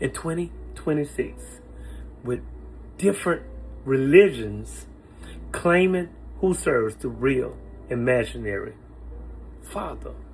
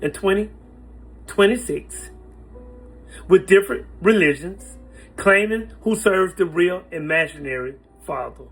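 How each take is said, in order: First: It is said slowly. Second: It is said at normal speed.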